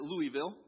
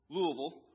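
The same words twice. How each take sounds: First: It is said with a Northern pronunciation. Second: It is said with a local Southern pronunciation. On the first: This is how an outsider from the North says it. "as I was growing up, I always pronounced it" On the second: This is how people in the South say it. "when I moved to the South that they pronounce it"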